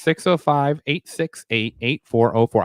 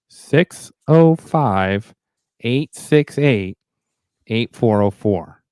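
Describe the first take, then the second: First: The number is read at a fast pace. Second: The number is read at a slow pace. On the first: "I was told I said it too fast" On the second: "let me slow it down"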